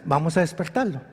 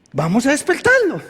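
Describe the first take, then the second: First: Low, soft quoted line; understated quote. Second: Fuller, livelier quoted line; emphatic repeat. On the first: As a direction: say it quietly and low, almost casually. Jesus quoted, understated first take. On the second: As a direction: repeat it out clearly, as a rallying call. Same quote repeated more emphatically. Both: Retold or imitated.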